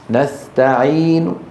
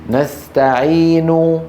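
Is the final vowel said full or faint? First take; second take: faint; full. First: The final vowel is lowered and mostly faded. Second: The final vowel is said fully. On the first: "ضمة منخفضة" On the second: "هذه حركة كاملة"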